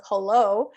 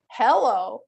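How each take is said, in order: First: HELLO said huh-LO, weight on the end; second-syllable stress. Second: HELLO stressed up front, HEL-lo; first-syllable stress. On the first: Teacher showing the other hello, stress on LO. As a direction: reduce the first vowel and stress LO in hello. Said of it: "instead of". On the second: Teacher showing a variation of hello, stress on HEL. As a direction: hit HEL with a full "eh" in hello. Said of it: "sometimes we would say". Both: Shown as a demonstration.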